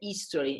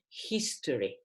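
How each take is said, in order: First: The starting H sound is dropped. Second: The starting H sound is pronounced. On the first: The speaker calls it wrong. "in Italy the H is mute" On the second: The speaker calls it right. "instead it is history"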